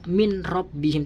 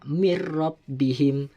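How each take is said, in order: First: The n sound is pronounced before the r. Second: The n sound merges into a doubled r. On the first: The speaker calls it wrong. "tidak boleh dibaca" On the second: The speaker calls it right. "harus dimasukkan suara nun mati tersebut kepada huruf ra"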